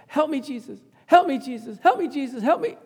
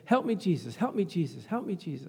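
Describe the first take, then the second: First: Imitated desperate cry, pitched high. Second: Said in the usual way. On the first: Preacher acting his dying dad calling to Jesus, crying out high. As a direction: call out pleadingly in a raised voice, repeating urgently. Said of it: "Cry that out".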